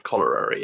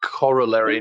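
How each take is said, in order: First: "colliery" repeated as the mistaken version; wrong pronunciation. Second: "corollary" said carefully as the proper word; correct pronunciation. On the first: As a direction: say "colliery" as the slip being corrected. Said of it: "It would be corollary". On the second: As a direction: say "corollary" clearly with every syllable in place. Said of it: "not colliery". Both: Shown as a demonstration.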